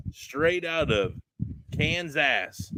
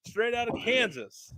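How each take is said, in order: First: Slow, drawn-out Appalachian twang on Kansas. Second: Said in the usual way. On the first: Acted. Host introducing the guests from Kansas in an Appalachian twang. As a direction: stretch it out like a hammed-up Appalachian host. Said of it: "I said it with the twang". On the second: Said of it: "Since I can't say it with Appalachian flair".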